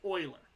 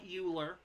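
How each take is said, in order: First: It begins with an 'oy' sound, like oiler. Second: It begins with a 'you' sound, rhyming with ruler. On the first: The speaker calls it right. "it's Euler. It's got a bit of an accent to it" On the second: The speaker calls it wrong. "It's not Euler, like ruler"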